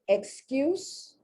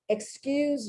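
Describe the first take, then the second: First: The final consonant is a hissing S sound. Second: The final consonant is a buzzing Z sound. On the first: It is a noun. "to have an excuse, that's a noun" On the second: It is a verb. "that's a verb, and the S is pronounced like a Z"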